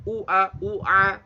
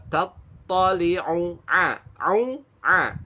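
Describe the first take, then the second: First: U A with a plain glottal onset on one vowel; wrong hamzah for ain. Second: Both vowels of U A squeezed from the throat; ain followed by ain. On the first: Teacher shows the common failure, hamzah replacing an ain. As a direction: say U A without throaty ain on both. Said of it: "jadi satunya hamzah, satu ain itu salah". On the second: Teacher models for learners two ains in a row. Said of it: "itu ain-ain". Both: Shown as a demonstration.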